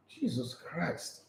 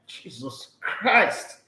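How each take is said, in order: First: Slow, near-silent groan of disbelief; hushed, drawn-out Jesus Christ; exasperated sigh. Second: Slow, drawn-out Jesus Christ with a falling end; slow despairing Jesus Christ; exasperated groan. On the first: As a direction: breathe it out in despair, barely voiced. Exasperated at Maguire's defence. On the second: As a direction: say it again in weary disbelief, audible this time. Repeats in exasperation. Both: Real, not acted.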